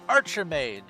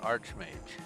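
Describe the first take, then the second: First: It is said in three syllables, ar-chi-mage. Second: It is said in two syllables, arch-mage. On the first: The speaker calls it wrong. "they add an I" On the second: The speaker calls it right. "they add an I to Archmage"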